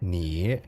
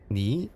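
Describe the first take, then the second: First: The pitch dips down and then rises. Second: The pitch rises through the word. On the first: "It's like a down and then up" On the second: "tone two is like up"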